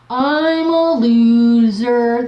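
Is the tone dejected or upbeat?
dejected. It is said in a dejected, defeated tone.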